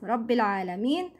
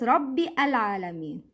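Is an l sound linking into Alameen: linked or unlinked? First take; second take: linked; unlinked. First: An l sound joins Rabbi straight into Alameen. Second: Rabbi ends in a vowel, then a separate Alameen. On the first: The speaker calls it right. "We say Rabbil" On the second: The speaker calls it wrong. "not Rabbi Alameen. Don't pronounce Hamzat Al-Wasl"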